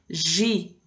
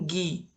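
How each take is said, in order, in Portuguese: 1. A consoante é um som suave parecido com J. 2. A consoante é um som de G duro. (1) "eu vou ter Gi" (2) "Eu não vou ter um Gui"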